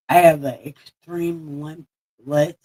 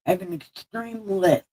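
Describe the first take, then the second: First: "limp list" slurred through a toothless lisp; "extreme limp list", lisping without teeth. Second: "list" as a second, higher try at lisp; "extreme list" said again, carefully; corrected try. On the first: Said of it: "I have an extreme list". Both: Real, not acted.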